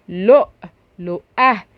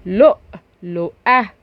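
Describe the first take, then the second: No difference in how they are said.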